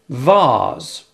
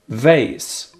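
First: It is said in British English. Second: It is said in American English.

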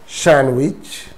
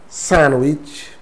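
No difference in how they are said.

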